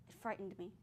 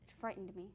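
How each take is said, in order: The two takes are said the same way.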